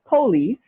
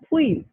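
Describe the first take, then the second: First: The first vowel is pronounced in full. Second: The first vowel is dropped, making one syllable.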